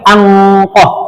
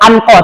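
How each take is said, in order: First: The n is a long held nasal sound. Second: The n is short and clearly pronounced. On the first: The speaker calls it right. "tetap harus dilamakan" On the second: The speaker calls it wrong. "Tidak boleh anko"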